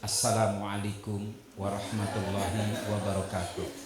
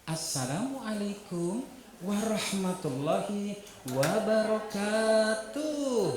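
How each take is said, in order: First: The greeting has a formal, adult intonation. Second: The greeting has a lively, childlike intonation. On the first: It suits grown-ups, not young children. The speaker calls it wrong. "intonasinya salam seperti orang dewasa" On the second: It suits a class of young children. The speaker calls it right. "T K PAUD"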